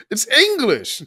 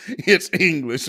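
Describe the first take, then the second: First: Louder, firm "It's English" on a falling tune; insistent retort. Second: "It's English" drawn out slowly through laughter; laughing repeat. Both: Retold or imitated. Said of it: "what language is that?".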